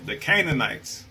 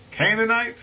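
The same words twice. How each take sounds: First: Said in the usual way. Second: Sharply higher questioning rise; incredulous echo. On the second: Real, not acted. Echoing the book's word to viewers, incredulous rise. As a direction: repeat it as if you can't believe it.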